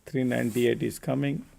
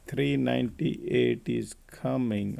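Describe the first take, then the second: First: Said in the usual way. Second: Slow, stretched-out price call; drawn-out repeat. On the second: Real, not acted. Trader telling viewers three ninety-eight is coming, slow and drawn out.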